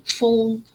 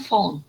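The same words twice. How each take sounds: First: Put-on phone with the gliding vowel of "old"; long O sound. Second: Phone with an open, unglided "aw" vowel; wrong short vowel. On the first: Teacher modelling for a student, phone with long O. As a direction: round the o in phone into a diphthong. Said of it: "the sound is old". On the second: Teacher showing a student's error, phone as "fawn". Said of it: "not phone". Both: Shown as a demonstration.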